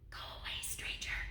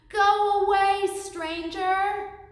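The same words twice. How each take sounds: First: It is said quietly. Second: It is said as loud as possible.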